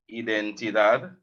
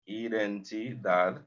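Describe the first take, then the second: First: Said in the usual way. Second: Identidad said slowly and softly, syllable by syllable; slow, softer model of Identidad; slow careful repeat. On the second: Shown as a demonstration. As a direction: spell out Identidad slowly for the learner. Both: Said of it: "you could say cédula o carnet de identidad".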